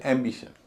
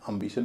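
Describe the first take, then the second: First: "एम्बिशन" opening on a full em; full, unreduced first vowel in "एम्बिशन"; heavy first syllable. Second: "एम्बिशन" opening on a weak um; short uh in place of em in "एम्बिशन"; reduced first syllable. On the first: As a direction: say "एम्बिशन" as EM-bi-shun. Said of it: "पहला syllable एम बोला जा रहा है". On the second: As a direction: say "एम्बिशन" as um-BI-shun. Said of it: "नहीं बोला जा रहा है". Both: Shown as a demonstration.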